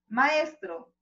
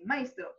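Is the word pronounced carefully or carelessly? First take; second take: carefully; carelessly. First: The word is pronounced with careful, full vowels. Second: The word is pronounced with careless, altered vowels. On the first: The speaker calls it right. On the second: The speaker calls it wrong.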